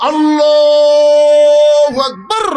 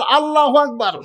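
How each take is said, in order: First: Loud, long-drawn chanted shout; calling out takbir. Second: Said in the usual way. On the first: Acted. Shepherd interrupting the prayer to correct the imam, shouted takbir. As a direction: cry it out high, holding the note.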